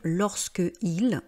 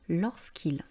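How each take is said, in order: First: The final vowel of 'lorsque' is kept. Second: The final vowel of 'lorsque' is dropped. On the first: The speaker calls it wrong. "il ne faut pas dire" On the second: The speaker calls it right. "vous dites bien"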